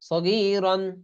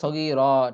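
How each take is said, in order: First: The word ends with an 'n' sound. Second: The word ends with a long 'a' sound. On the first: The reading continues without a stop. "দুই জবর রন" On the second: The reader stops at this word. "থামলে এরকম হবে"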